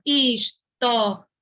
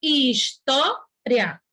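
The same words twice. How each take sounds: First: "História" sounded out slowly as his, tó, ri, a; "História" with RI and A said separately; split into four syllables. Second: "história" sounded out slowly as his, tó, ria; "história" with the last two vowels glided together; split into three syllables. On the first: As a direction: break "História" into four beats, final A alone. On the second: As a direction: break "história" into three beats, RIA joined. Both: Shown as a demonstration. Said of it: "pode ser separado das duas formas".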